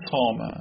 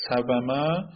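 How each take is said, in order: First: سامه said with a long aa in place of the w; saa-ma, w turned into alef; easier changed form. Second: سومه said with the w sounded and a vowel on it; sa-va-ma, the unchanged heavy form; hard original form. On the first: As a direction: pronounce سامه as saa-ma, two syllables. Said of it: "سومه گفتن راحته یا سامه". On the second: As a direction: pronounce سومه as sa-va-ma, three syllables. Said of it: "ببینیم که تلفظ سخته". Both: Shown as a demonstration.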